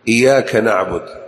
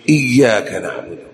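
First: The 'y' sound in the first word is single. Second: The 'y' sound in the first word is doubled. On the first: It sounds like worshipping the sunlight. The speaker calls it wrong. "ومن الاخطاء ايضا في ذلك الكفر اللفظي" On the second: It means worshipping God alone. The speaker calls it right. "فليقل بالتشديد"

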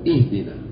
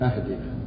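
First: The word begins with an 'i' vowel. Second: The word begins with an 'a' vowel. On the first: Guide us. The speaker calls it right. "ينبغي أن يكسب يقول اهدنا" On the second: Give us a gift. The speaker calls it wrong. "يعني يا رب أعطينا هدية"

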